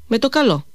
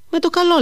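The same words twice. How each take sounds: First: Said in the usual way. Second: Emphatic repeat. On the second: Acted. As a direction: repeat it so she can't miss it. Repeats it after "Πώς.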